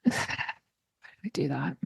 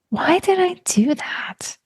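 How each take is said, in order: First: It sounds ashamed and negative, with a sigh. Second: It sounds curious and almost excited.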